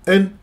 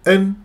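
Both takes have the same delivery.

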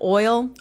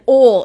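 First: It is said with a standard accent. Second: It is said with a Texas accent. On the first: "instead of oil" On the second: "And oil instead of"

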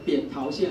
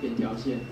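First: The middle syllable is pronounced tao. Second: The middle syllable is pronounced tiao. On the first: The speaker calls it right. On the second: The speaker calls it wrong.

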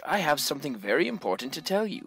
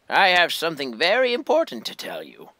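First: It is read in the speaker's own normal voice. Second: It is read in a put-on Geezer voice.

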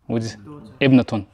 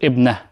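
First: The word ends with the full -atun ending. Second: The word stops without the final vowel ending.

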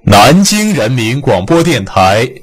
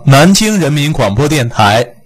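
First: Each syllable is drawn apart and held firmly. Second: The syllables are run together loosely. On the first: The speaker calls it right. "就是要求把字符拉开立起来" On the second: The speaker calls it wrong. "你如果播成南京人民广播电台，你再怎么播它也不好听"

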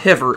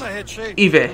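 First: The word starts with an audible H sound. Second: The word starts with no H sound. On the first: The speaker calls it wrong. "Not Hiver" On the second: The speaker calls it right. "it's Hiver. It's a silent H"

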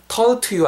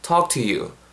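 First: The L sound in talk is pronounced. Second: The L sound in talk is silent. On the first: The speaker calls it wrong. "talk to you 아니에요" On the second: The speaker calls it right. "L 사운드 무시하시고"

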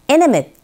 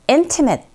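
First: The T after the N is nearly silent. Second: The T after the N is clearly pronounced. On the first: "T 사운드가 이렇게 N 사운드와 같이 맞물려 있는 경우에는 T 사운드가 거의 안 들리는 경우가 있거든요" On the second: "첫 번째 강세 주시면서 발음하시면 되는데"

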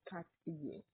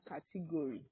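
First: The middle vowels are weak and the word is short. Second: The middle vowels are pronounced fully and clearly. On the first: The speaker calls it right. "It's category" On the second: The speaker calls it wrong. "I know we are tempted to say category, but it's not category at all"

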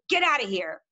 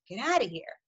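First: It is said in an angry tone. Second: It is said in a surprised tone.

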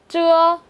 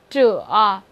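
First: The pitch stays high and level. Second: The pitch dips low and then rises.

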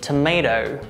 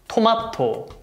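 First: It is said with American pronunciation. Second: It is said with Korean pronunciation. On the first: "American pronunciation" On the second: "Korean pronunciation"

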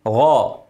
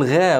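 First: The gh sound is heavy and full. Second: The gh sound is light and thin. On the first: The speaker calls it right. "الغين مفخمة" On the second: The speaker calls it wrong. "اوعى تقول غا غلط"

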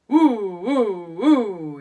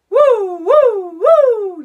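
First: It is said in a low voice. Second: It is said in a medium voice.

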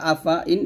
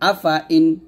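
First: The vowel after f is kept short. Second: The vowel after f is drawn out long. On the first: The speaker calls it right. "এরকম আফা ইন পড়তে হবে" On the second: The speaker calls it wrong. "এরকম আফা ইন বলা যাবে না"

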